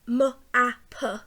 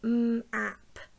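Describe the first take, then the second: First: Each consonant sound carries an added vowel after it. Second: Each consonant sound is pure with no added vowel. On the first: The sounds will not blend smoothly into the word. The speaker calls it wrong. "if I said m, a, p" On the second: The sounds blend seamlessly into the word. The speaker calls it right. "if we pronounce them correctly"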